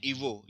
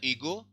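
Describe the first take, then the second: First: ईवो pronounced with a V sound, "ee-VO"; spoken form. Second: ईगो read as written, with a hard G; spelling form. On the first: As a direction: say ईवो with V where G is written. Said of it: "देखो इसको पढ़ते हैं ईवो". (ईवो में ग की जगह व की आवाज़) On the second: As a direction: say ईगो letter by letter as spelt, "ee-GO". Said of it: "लिखा जाता है ईगो". (ईगो जैसा लिखा है, ग के साथ) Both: Shown as a demonstration.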